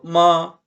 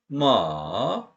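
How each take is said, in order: First: The pitch stays high and level. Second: The pitch dips low, then rises a little. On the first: It means mother. "높은 톤으로 마 이거는 엄마라는 뜻" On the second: It means horse. "중간쯤에서 확 떨어졌다가 조금 더 올라가요"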